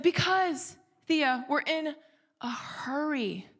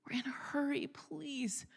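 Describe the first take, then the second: First: Higher, insistent, drawn out on hurry; retold impatient mom, stretching out "hurry"; added passion. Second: High, hushed pleading repeat; strained plea. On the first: Rushed mother answers daughter's whys, with added passion. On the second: Retold or imitated. Rushed mother urging her daughter along, hushed strained plea. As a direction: beg the child under your breath. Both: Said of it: "let's just say added some passion to it".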